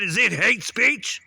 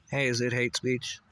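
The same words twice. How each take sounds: First: Slow, much higher and louder question; loud demo. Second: Said in the usual way. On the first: Shown as a demonstration. Ranter shows viewers how he said it, loud and slow. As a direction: belt out "hate speech" slowly, pitched way up. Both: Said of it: "Can you hear the way I said".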